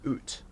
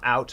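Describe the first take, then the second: First: The vowel sounds closer to 'oo', Canadian-style. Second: The vowel sounds like the American 'ow'. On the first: The speaker calls it right. "Canadian way" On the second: The speaker calls it wrong. "It's not out, Americans"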